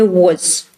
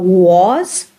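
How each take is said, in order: First: The vowel is short and reduced. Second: The vowel is full and clearly pronounced. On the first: "It is shortened and it, it sounds like very short oo" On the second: "instead of was"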